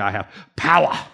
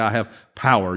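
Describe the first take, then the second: First: The phrase is said forcefully, stressing power. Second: The phrase is said flatly, without emphasis. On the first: The speaker truly feels the words. The speaker calls it right. "You have to say I have power" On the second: The words are only quoted, not felt. The speaker calls it wrong. "you can't say I have power"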